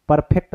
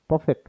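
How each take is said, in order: First: परफेक्ट with a clear r, per-fect; the mispronunciation to avoid, परफेक्ट with r; wrong way. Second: परफेक्ट with the r dropped, pe-fect; the correct reading, परफेक्ट without r; right way. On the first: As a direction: say परफेक्ट sounding the r fully. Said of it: "परफेक्ट नहीं पढ़ते हैं". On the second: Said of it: "परफेक्ट पढ़ते हैं". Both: Shown as a demonstration.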